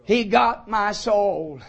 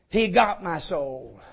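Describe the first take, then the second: First: Humbly but joyfully. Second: Said in the usual way. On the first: Shown as a demonstration. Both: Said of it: "I can say humbly but joyfully".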